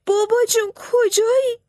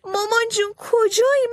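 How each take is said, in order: First: Much higher, louder put-on sob calling for dad; boy faking tears for the enemy; fake crying wail. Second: Much higher, louder put-on cry calling for mom; boy faking tears for the enemy; fake crying wail. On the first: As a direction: wail like a lost child to fool the soldiers. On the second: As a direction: keep wailing like a lost child. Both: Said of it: "بلند بلند ناله کرد و داد زد".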